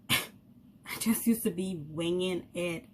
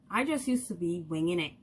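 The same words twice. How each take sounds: First: Slow, laughing repeat of winging it; amused slow repeat. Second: Said in the usual way. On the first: Shown as a demonstration. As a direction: laugh through the words, drawn out.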